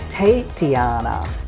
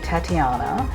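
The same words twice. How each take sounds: First: The first syllable sounds like 'tate' with 'eight'. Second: The first syllable is a plain 'ta' sound. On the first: This is the stylized stage name. "we added the letter eight into it" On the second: This is the real given name. "my real name is actually Tatiana"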